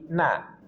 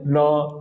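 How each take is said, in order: First: The syllable sounds light and thin, vowel clear. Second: The syllable sounds heavy and thick, vowel darkened. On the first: The speaker calls it right. "tapi na. Tipiskan" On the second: The speaker calls it wrong. "Jangan sampai ditebal jadi no"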